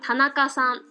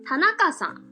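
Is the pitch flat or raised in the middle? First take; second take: flat; raised middle. First: It is said in standard Japanese, fairly flat. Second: It is said in Hiroshima dialect, middle raised.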